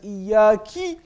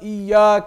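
First: The final vowel after k is i. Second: The final vowel after k is a. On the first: It addresses a female. The speaker calls it wrong. "That changes the meaning in Arabic altogether from male to female" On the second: It addresses a male. The speaker calls it right. "instead of"

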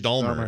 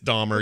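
First: The name is said with an L sound. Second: The name is said without an L sound. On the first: The speaker calls it wrong. "I always thought it was Jeffrey Dahmer" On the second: The speaker calls it right. "It's Dahmer. You guys are right"

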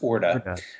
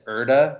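First: The name begins with an 'or' sound. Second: The name begins with an 'er' sound. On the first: The speaker calls it right. "I think it's pronounced Orta" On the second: The speaker calls it wrong. "I used to say it in my head as Erda"

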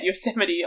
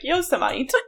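First: The word is said the conventional spoken way. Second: The word is said the way it is misread. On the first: The speaker calls it right. "I will never say in my head Yosemite" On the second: The speaker calls it wrong. "I'll be like Yosemite"

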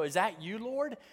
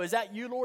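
First: It is said in a sincere, awed tone. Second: It is said in a dismissive, brushing-off tone.

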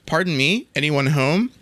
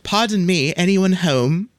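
First: It is said without a British accent. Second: It is said with a British accent. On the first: The speaker calls it wrong. "Let me go back" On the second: The speaker calls it right. "A female voice this time with a charming British accent"

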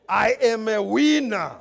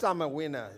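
First: It is said in a strong African accent. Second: It is said in a plain, weaker accent.

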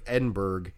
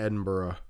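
First: Edinburgh is said in a non-local way. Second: Edinburgh is said the way locals say it. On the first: "It's like Edinburgh" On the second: "they pronounce it Edinburgh"

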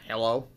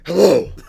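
First: It is said in his normal voice. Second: It is said in a gruff Batman voice.

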